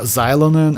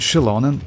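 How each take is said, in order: First: The name begins with a z-like sound. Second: The name begins with a sh sound. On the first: This is how players said it before. The speaker calls it wrong. "we called her Xylonen" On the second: This is the official pronunciation. The speaker calls it right. "her name pronounced like Shilonen"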